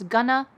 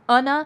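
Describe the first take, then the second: First: The words merge into one word with a g. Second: The words merge and the g sound is dropped. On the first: "becomes gonna" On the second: "or becomes unna"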